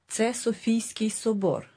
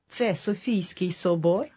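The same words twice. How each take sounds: First: It is said as a statement. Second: It is said as a question.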